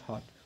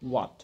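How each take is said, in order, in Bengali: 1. এটা h ধ্বনি দিয়ে শুরু হয়, w নেই। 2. এটা একটা গোলাকার w গ্লাইড দিয়ে শুরু হয়। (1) "এটাকে বলবে হট, ইটস নট হট" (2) "হবে হোয়াট"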